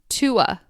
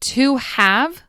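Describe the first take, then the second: First: The word 'have' is reduced to a schwa. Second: The word 'have' is said in full.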